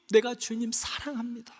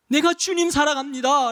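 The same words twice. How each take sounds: First: Softer take, 내가 leaned on; soft confession. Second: Said in the usual way. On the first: Pretend. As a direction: murmur the vow tenderly. Repeated love confession.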